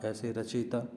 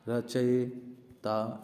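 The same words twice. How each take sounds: First: Said in the usual way. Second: रचयिता drawn out very slowly, syllable by syllable; wrong form said slowly. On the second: Shown as a demonstration. Teacher reading the wrong form to students, slowly. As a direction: stretch रचयिता slowly as the misspelling. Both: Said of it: "वो ऐसे भी लिख सकता है".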